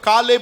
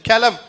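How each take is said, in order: First: The name ends with a b sound. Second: The name ends with a v sound. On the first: This is the English form of the name. "அது English pronunciation" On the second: This is the original form of the name. "கெலவ் தான் அவன் பேரு"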